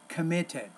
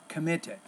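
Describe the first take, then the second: First: The middle T is a clear, crisp T. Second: The same.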